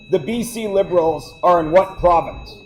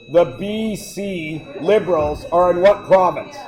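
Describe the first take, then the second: First: It is said at normal speed. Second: It is said slowly.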